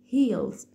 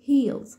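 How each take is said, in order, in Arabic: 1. الصوت الأخير صوت s صفيري. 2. الصوت الأخير صوت z طنّان. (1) "مش heels" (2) "بتدينا صوت الزات ساوند"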